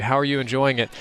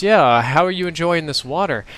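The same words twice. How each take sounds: First: Said in the usual way. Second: Repeating louder. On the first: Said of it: "And God says". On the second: Retold or imitated. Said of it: "Say that again?".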